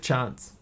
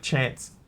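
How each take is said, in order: First: It is said in a typical New Zealand accent. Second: It is said in a non-Kiwi, Australian-leaning accent. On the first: "most Kiwis will say chance" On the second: "I still say stuff like chance"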